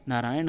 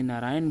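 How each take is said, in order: First: नारायण ending in retroflex N; curled N closing नारायण; correct pronunciation. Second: नारायण ending in plain N; straight-tongued N closing नारायण; colloquial pronunciation. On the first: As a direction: say नारायण as "narayaṇ", tongue curled. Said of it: "उसका सही वर्तनी नारायण". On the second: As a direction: say नारायण as "narayan", dental N. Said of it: "नारायण भी बोल दिया जाता है". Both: Shown as a demonstration.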